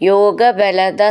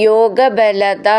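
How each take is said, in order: Both takes have the same delivery.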